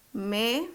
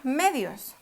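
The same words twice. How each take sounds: First: "Medios" as "Me ... dios", pause between; syllable by syllable. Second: Said in the usual way. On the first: Shown as a demonstration. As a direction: split "Medios" into two separate syllables. ("Me ... dios", separado en sílabas) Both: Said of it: "dividámosla".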